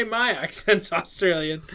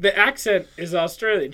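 First: My picked out against The; stress on My. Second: The picked out against My; stress on The. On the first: Speaker corrects the misquote, stress on My. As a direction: lean on My as the rejected word. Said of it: "She didn't say". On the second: Speaker points out a loophole, stress on The. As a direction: lean on The as the key word. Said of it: "She didn't lie, I'd like to point out". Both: Retold or imitated.

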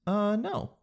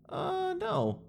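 First: "Uh, no." high and unsure; hesitant rising no. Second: "Uh, no." squeaked up very high and soft; weak high no. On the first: The wrong way to refuse a clerk, hesitant high no. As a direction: let "no" hang up high and weak. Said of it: "This is the way to not do it". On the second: The wrong way to refuse the clerk, weak high no. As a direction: let "no" float up high and unsure. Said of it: "Did you hear the difference?". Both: Shown as a demonstration.

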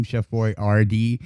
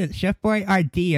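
First: Put-on Boyardee said slowly, rising at the end; slow careful "Chef Boyardee", rising tune; own pronunciation. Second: Put-on higher, fussy "It's Chef Boyardee"; mock correction. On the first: Shown as a demonstration. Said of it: "told somebody how to say his name". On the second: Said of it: "That's not how you say it".

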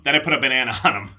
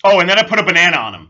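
First: Quicker, laughing through it; laughing retake. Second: Excited, louder rush; louder fast take. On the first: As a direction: giggle the repeat. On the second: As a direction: blurt it out fast and loud. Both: Real, not acted.

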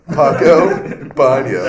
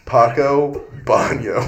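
First: Paco Baño louder, breaking into a laugh; cheeky loud Paco Baño; loud joking answer. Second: Paco Baño stretched slow and proud; deadpan slow Paco Baño; slow drawn-out answer. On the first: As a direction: blurt Paco Baño through a grin. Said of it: "And I'm like". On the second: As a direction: drag out Paco Baño like a punchline. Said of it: "and I'd go". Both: Retold or imitated.

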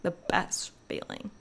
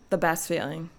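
First: Near-whispered, savoring repeat; hushed emphasis. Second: Said in the usual way. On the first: Real, not acted. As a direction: drop to a soft, breathy hush.

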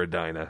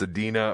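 First: Edina said "ee-DIE-nuh"; Edina with long I. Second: Edina said "ee-DEE-nuh"; Edina with long E. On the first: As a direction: stress the middle of Edina, rhyming it with "China". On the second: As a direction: stress the middle of Edina as "dee". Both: Shown as a demonstration. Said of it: "he doesn't know if it's".

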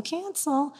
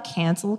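First: "cancel" higher and firm with a final fall. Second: Said in the usual way. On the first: Shown as a demonstration. Journaling, crossing out the idea, a firm final "cancel". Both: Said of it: "Cross out that idea".

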